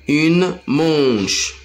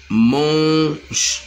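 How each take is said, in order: First: Said in the usual way. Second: "manche" drawn out, long "man" then a separate "che"; teacher isolating the first sound of "manche". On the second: Shown as a demonstration. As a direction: stretch the nasal vowel of "manche" before the final sound.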